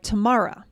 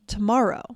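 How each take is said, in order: First: The final sounds of the word are dropped. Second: The final sounds of the word are fully pronounced.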